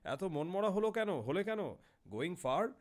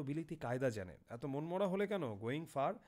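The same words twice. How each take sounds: First: Raised, louder, inquiring; a hint of the chatty foreign traveller; lightly voiced European passenger. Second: Said in the usual way. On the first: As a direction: ask it brightly, pitched up. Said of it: "সে বলল".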